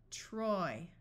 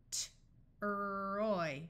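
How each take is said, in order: First: Said in the usual way. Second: T-roy split, the T apart from roy; sounded out. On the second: Shown as a demonstration. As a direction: pull T-roy apart slowly. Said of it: "T-roy, Troy".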